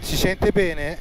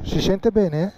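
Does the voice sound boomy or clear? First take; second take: clear; boomy. First: The voice sounds clear, without echo. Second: The voice sounds boomy and echoing. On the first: The speaker calls it right. "ho aperto il casco" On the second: The speaker calls it wrong. "è chiuso adesso"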